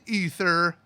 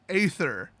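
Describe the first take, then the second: First: The word begins with an 'ee' vowel. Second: The word begins with an 'ay' vowel. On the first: The word is read as it was intended. The speaker calls it right. "I know that they mean ether" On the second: The word is read exactly as it is spelled. The speaker calls it wrong. "They have a default pronunciation, and it's A"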